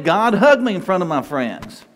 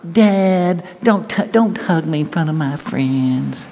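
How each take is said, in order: First: Earnest invitation, "hug me" said openly and gladly; sincere plea. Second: Put-on higher, whining teen protest dragged out slowly; whiny teenager. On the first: Shown as a demonstration. Preacher showing how to welcome God's love, sincere. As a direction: offer it up to God as a heartfelt request. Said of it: "Go ahead". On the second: Teenager begging dad not to hug him in public, whiny. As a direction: whine it like an embarrassed kid. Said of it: "I've heard that".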